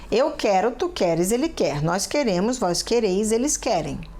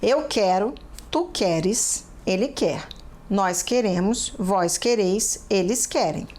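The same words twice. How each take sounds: First: It is said somewhat faster than normal. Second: It is said at a normal, slow pace.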